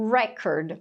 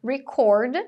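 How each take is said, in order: First: "record" as REK-erd, slow and falling; "record" with strong REC, reduced second syllable; stress on first syllable. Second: "Record" as ri-CORD, punched on CORD; "Record" with weak first syllable, strong second; stress on second syllable. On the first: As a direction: stress the start of "record", like the noun. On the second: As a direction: stress the end of "Record", like the verb. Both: Shown as a demonstration. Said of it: "dependendo de onde você coloca a sílaba tônica".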